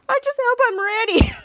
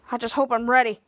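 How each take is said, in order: First: High, laughing parody; mocking mimicry. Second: Said in the usual way. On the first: Miles mimics Bose's hopeful line, laughing mockery. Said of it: "Miles begins to laugh". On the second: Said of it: "Bones is like".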